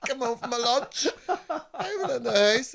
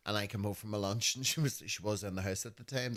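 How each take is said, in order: First: Giggling through the words, high up; laughing it out as you tell it. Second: Said in the usual way. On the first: Real, not acted. Telling a friend about mum's move, laughing. Laughing while retelling coming home.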